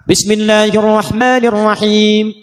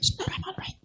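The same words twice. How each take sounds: First: The phrase is recited loudly and clearly. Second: The phrase is recited quietly and faintly. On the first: "Jikalau dijaharkan, dibaca keras" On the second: "Sir, silent, tipis"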